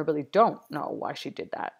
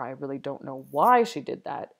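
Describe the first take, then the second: First: Don't punched louder with a falling tune; stress on don't. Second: Why hit loud with a falling tune; stress on why. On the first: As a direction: lean hard on the word don't. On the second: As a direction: make the word why carry the question. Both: Shown as a demonstration. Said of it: "various different ways to say this".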